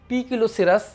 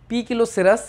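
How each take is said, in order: Both takes have the same delivery.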